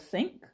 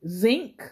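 First: The word begins with an s sound. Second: The word begins with a z sound.

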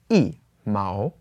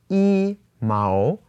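First: The first syllable has a falling tone. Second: The first syllable has a high level tone. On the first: The speaker calls it right. "it is yi mao" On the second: The speaker calls it wrong. "So here it's not yi mao"

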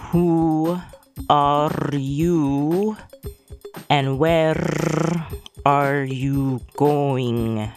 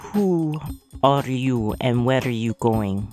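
First: It is said slowly. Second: It is said at a normal speed.

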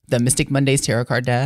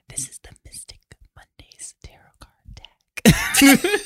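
First: It is said in a plain, normal voice. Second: It is said in a sensual, seductive voice.

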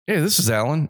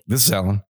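First: It is said in a friendly, nice tone. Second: It is said in an irritated tone.

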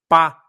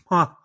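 First: The syllable is clear, with no nasal air. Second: The syllable is nasal, with air escaping. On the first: This is the intended sound. The speaker calls it right. "se eu quisesse falar pá" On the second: This is how it comes out with a cleft palate. The speaker calls it wrong. "e tivesse uma fenda, o som sairia pá"

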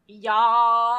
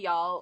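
First: It is said with an exaggerated Southern accent. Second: It is said plainly, without an exaggerated accent.

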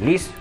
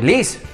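First: The name is called at normal volume. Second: The name is called out loudly.

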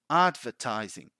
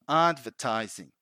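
Both takes have the same delivery.

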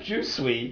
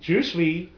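First: It sounds like the English word 'juicy'. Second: It sounds like the French phrase 'je suis'. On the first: The speaker calls it wrong. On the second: The speaker calls it right.

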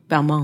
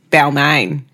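First: The name is pronounced with a French accent. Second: The name is pronounced with an Australian accent. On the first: "very hard to say in the French way" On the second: "And that's how you say it in Australia"

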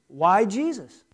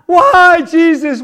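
First: The stress is on Jesus, as a question. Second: The stress is on why, as a complaint.

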